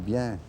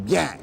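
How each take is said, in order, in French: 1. Le mot est dit calmement et doucement. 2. Le mot est crié fort.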